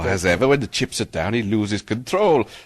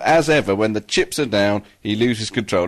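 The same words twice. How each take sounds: First: It is read in an attempted Welsh accent. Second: It is read in the speaker's ordinary accent.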